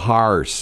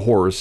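First: The word has a local St. Louis vowel. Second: The word has a standard vowel. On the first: "you're going to ride the horse" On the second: "not the horse"

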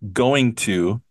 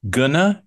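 First: The two words are said separately. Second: The two words are smashed together. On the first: "Native speakers rarely pronounce going to as going to" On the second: "We mostly pronounce it when we're talking as gonna"

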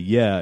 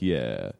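First: It is said in a clear, smooth voice. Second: It is said in a creaky, vocal fry voice. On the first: It sounds professional, like a broadcaster. "you would say yeah" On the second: It sounds relatable and laid back. "instead of like yeah. Because your vocal fry is supposed to be like unprofessional"

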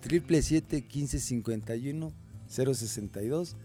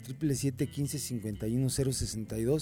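First: It is said slowly. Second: It is said at normal speed.

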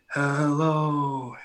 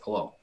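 First: It is drawn out with an echoing sound. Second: It is said short and plain, without echo.

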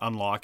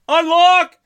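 First: The word is said flatly, without extra energy. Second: The word is said excitedly, like an exclamation. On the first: The speaker calls it wrong. "You're mispronouncing the title of the game" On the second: The speaker calls it right. "I didn't type in the exclamation point"

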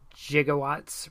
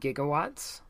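First: It begins with a soft J-like G sound. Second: It begins with a hard G sound. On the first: An older pronunciation once standard among physicists. "why Doc Brown would use gigawatts ... the Neo-Latin language gave it a soft G" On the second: The usual pronunciation today. "Nowadays, it's usually pronounced with a hard G, like gander or gold"

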